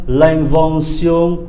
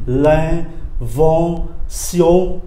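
First: "l'invention" slow but joined, every vowel nasal; three nasal vowels. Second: "L'invention" broken very slowly into three nasal syllables; three separate nasals. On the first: Teacher repeats the word for learners, three nasal vowels. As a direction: say "l'invention" as one drawn-out word through the nose. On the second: Teacher separates the three nasal sounds, syllable by syllable. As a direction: pause between each nasal syllable of "L'invention". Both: Shown as a demonstration. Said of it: "ba âm mũi này".

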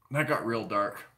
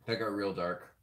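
First: Said in the usual way. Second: Softer, lower under the breath; low muttered aside; quieter muttered repeat. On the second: Real, not acted. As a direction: mutter it again to yourself, lower. Repeats the remark more quietly.

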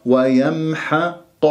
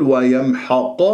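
First: Slow ويمحق with thin ح, heavy ق; careful ويمحق, keep حا light before قا. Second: ويمحق with the ح thickened like its ق; wrong heavy ha. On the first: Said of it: "ركزت على الحاء مرتين مرققة". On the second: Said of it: "خطأ". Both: Shown as a demonstration.

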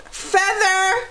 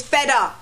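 First: Said in the usual way. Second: "feather" said as "fedda", no R. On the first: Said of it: "is not feather". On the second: Shown as a demonstration. To viewers, showing the local way: "feather" as fedda. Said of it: "it's feather".

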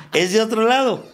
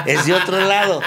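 First: Laughing repeat. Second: Laughing aside. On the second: Laughing about the new man. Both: Real, not acted.

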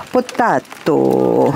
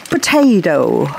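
First: Potato with "tah", "poh-TAH-toh", lower and slow; Australian potato. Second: Potato with "tay", "puh-TAY-toh"; American potato. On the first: Gardener answers with the other potato. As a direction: drop low for the potato variant. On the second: Gardener plays the potato-tomato song line. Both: Shown as a demonstration. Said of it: "You say tomato, we say".

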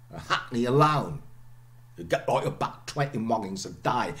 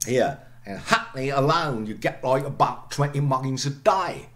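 First: Lightly voiced Cockney, glottal stops kept; a modest try at Cockney; lighter Cockney attempt. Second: Louder Cockney demo with glottal stops in Hackney; Cockney accent. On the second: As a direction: say it like a Londoner, dropping the t's. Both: Shown as a demonstration. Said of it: "I'm not a Cockney, I try".

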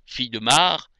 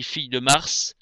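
First: Mars said as "mar", no final s; silent S in Mars. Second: Mars with an audible final "s"; final S sounded in Mars. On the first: Reader showing the rhyme with art, Mars with silent s. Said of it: "il y a la rime avec art". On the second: Reader showing how the rhyme is lost, Mars with final s sounded. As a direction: say "Mars" ending in a clear hissed s. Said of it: "si je dis fille de Mars". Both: Shown as a demonstration.

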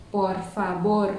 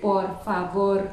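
First: "favor" read with a Vietnamese v; "por favor" with the v voiced like Vietnamese v, the wrong way; wrong v sound. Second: "por favor" with the v said as b. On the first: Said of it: "mình sẽ không đọc là". (đọc sai "por favor" với âm v kiểu Việt) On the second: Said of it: "Tất cả đều đọc là B". (đọc "por favor" với âm b) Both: Shown as a demonstration.

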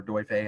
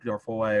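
First: Doife offered as another reading of Dorfoy; alternative pronunciation. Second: Dorfoy said as DOR-foy; first reading of Dorfoy, rhyming with boy; variant pronunciation. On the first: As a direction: say Doife as the other variant, without Dorfoy's plain "foy" ending. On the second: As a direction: end Dorfoy on an "oy" sound. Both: Shown as a demonstration. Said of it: "however you want to pronounce them".

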